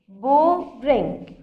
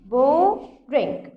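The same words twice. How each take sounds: The two takes are said the same way.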